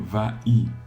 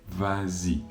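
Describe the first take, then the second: First: The two vowels meet with no linking z sound. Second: A z sound links the two vowels together. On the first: The speaker calls it wrong. "si on enlève le S comme l'exception le dit, on va dire va-y. Et va-y, c'est difficile à prononcer" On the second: The speaker calls it right. "on rajoute ce S pour créer la liaison"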